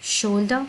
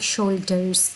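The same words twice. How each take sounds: First: शोल्डर with the end r dropped, British style, like shoulda. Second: शोल्डर्स with the final r clearly sounded, American style. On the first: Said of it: "British में ये होगा शोल्डर". (शोल्डर British ढंग से, आख़िरी आर छोड़ते हुए) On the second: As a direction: say शोल्डर्स rolling the r at the end. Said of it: "जो आर है वो अमेरिकन, सही तरह प्रोनाउंस होता है". (शोल्डर्स अमेरिकन ढंग से, आख़िरी आर साफ़ बोलते हुए) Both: Shown as a demonstration.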